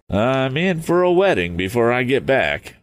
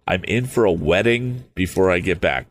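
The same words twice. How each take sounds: First: Higher-pitched youthful character musing; acted musing, pitched well up; musing aloud. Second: Said in the usual way. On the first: A narrator's reading. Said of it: "he mused".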